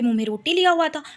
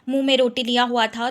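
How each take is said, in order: First: It is said with lively, rising and falling pitch. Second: It is said in a plain, even voice.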